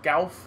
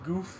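First: The vowel is an 'ow' sound. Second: The vowel is a long 'oo' sound. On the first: The speaker calls it right. "It should be gauf" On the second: The speaker calls it wrong. "he pronounced that one Zaku goof instead of gauf"

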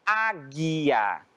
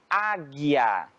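No difference in how they are said.

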